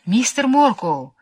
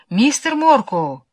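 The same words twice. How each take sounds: First: High, slow stifled call for help. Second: High, slow muffled call; stifled calling out. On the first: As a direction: call his name, muffled and slow. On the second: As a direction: call out his name again, stifled. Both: A narrator's reading. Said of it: "раздался придушенный голос".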